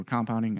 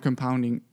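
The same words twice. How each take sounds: First: Said in the usual way. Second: Compounding with the stress on POUND, first syllable reduced; wrong syllable stressed. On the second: Real, not acted. Explaining compounding to service members, stress slips to POUND. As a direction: say com-POUND-ing, slipping the stress onto the second syllable. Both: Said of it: "The wrong emphasis on the wrong syllable".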